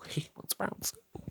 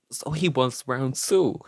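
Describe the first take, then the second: First: Unvoiced, slow stage whisper; hushed repeat. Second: Said in the usual way. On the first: Storyteller relishing the rival's return, in a slow mock whisper. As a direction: whisper it slowly for dramatic effect.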